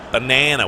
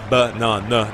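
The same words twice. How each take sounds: First: Banana said bə-NAN-uh, middle a like in cat; American banana. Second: Banana with a long ah, bə-NAH-nuh; British banana. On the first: Repeating the American banana for viewers, flat a. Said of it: "they say banana". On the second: Insisting to fans on the British banana, long ah. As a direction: stretch the middle of banana into a British ah. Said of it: "it's banana". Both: Shown as a demonstration.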